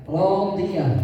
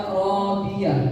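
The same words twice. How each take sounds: Both takes have the same delivery.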